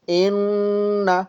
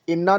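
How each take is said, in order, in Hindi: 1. 'न' नाक से लंबा खिंचता है। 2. 'न' छोटा है, नाक से खिंची हुई आवाज़ नहीं होती। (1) "नाक से साउंड आएगी" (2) "अब ऐसे नहीं पढ़ेंगे इसको"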